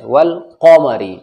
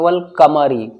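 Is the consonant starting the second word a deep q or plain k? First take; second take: deep q; plain k. First: The second word begins with a deep throat q. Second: The second word begins with a plain front k. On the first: The speaker calls it right. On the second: The speaker calls it wrong.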